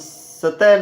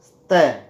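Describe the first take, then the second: First: A full vowel separates the s and t. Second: The s joins the t with no vowel. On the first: The speaker calls it wrong. "हम सतह नहीं बोलेंगे" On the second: The speaker calls it right. "इसे स्तः"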